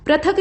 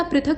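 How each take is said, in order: First: पृथक starting "pra"; wrong form. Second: पृथक starting "pri"; correct form. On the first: Teacher showing the mistake, पृथक starting "pra". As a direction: say पृथक as "prathak". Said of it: "नहीं होता". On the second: Teacher correcting it, पृथक starting "pri". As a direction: say पृथक as "prithak". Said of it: "पृथक होता है". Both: Shown as a demonstration.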